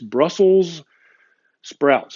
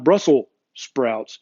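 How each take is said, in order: First: Brussels is said with a final s sound. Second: Brussels is said without a final s sound. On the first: The speaker calls it right. "make sure and you put the S at the end of Brussels" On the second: The speaker calls it wrong. "It's not"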